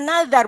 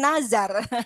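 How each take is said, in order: First: The middle consonant is a soft 'dh' sound. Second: The middle consonant is a buzzing 'z' sound. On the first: The speaker calls it right. "tapi za, dal kecil yang ada titiknya" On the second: The speaker calls it wrong. "bukan z, bukan zai"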